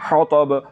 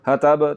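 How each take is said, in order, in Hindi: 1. t भारी है, ज़ुबान का पिछला हिस्सा तालु की तरफ उठा हुआ है। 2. t हल्की है, ज़ुबान का पिछला हिस्सा नीचे रहता है। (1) "ज़ुबान की जड़ और ज़ुबान के दरमियान वाले हिस्से को तालु की तरफ बुलंद करना है और मोटा करके ता को पढ़ना है" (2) "हतब हतब तो ऐसे नहीं पढ़ना"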